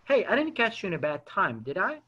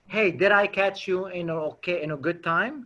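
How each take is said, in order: First: Soft "didn't catch you", falling, then a tag "did I?"; negative spin question. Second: Said in the usual way. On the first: Shown as a demonstration. Caller checks with the prospect, negative spin, soft "did I?" tag. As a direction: say "didn't catch you in a bad time" gently and tentatively. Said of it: "learn about this negative spinning". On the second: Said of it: "There's a difference".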